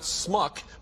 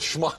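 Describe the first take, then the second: First: The word begins with a plain s sound. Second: The word begins with a sh sound. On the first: The speaker calls it wrong. "not smuck" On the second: The speaker calls it right. "but schmuck"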